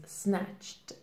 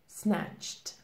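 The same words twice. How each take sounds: First: The ending is pronounced as a T. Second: The same.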